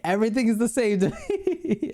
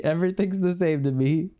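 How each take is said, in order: First: Laughing through the line. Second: Said in the usual way. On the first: Real, not acted. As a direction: giggle your way through it. Laughs through his own joke.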